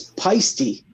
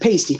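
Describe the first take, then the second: First: The name is said unlike the word 'pasty'. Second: The name is said like the word 'pasty'. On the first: The speaker calls it right. "technically, I pronounce it wrong. It's" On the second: The speaker calls it wrong. "So everyone said"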